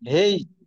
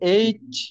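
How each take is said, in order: First: The name starts with an h sound. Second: The name starts with a vowel, no h. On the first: "আরেকটা হচ্ছে হেইচ, হয়কার রসই ছ" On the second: "একটা হচ্ছে এইচ"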